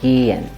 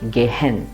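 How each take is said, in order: First: The first vowel is long, with the h silent. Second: The first vowel is short, with the h sounded. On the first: The speaker calls it right. "it becomes gehen, and the vowel sound is long" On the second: The speaker calls it wrong. "most of us will instinctively pronounce it as gehen. We will break the word at the ge"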